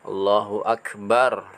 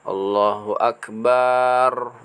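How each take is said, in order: First: The vowel in 'bar' is kept short. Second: The vowel in 'bar' is drawn out long. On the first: The speaker calls it right. "seperti itu" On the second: The speaker calls it wrong. "bukan Allahu Akbar, barnya dipanjangkan"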